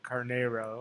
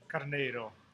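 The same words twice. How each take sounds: First: The name is said with an American accent. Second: The name is said with a Portuguese accent.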